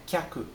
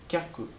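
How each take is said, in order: Both takes have the same delivery.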